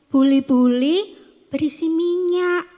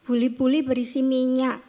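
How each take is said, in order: First: High, loud storybook announcement; acted realization. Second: Said in the usual way. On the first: Widow telling the prophet about her jar of oil, high acted reveal. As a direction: announce a sudden find in a raised voice.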